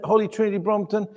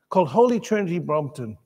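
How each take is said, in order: First: "Holy Trinity Brompton?" asked quickly with a questioning lilt; asking the congregation. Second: Said in the usual way. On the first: Real, not acted. Preacher checking if the congregation knows the church, quick questioning tone. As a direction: toss the name out as a quick question to the room. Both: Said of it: "Anyone familiar with it?".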